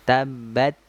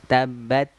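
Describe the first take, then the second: Both takes have the same delivery.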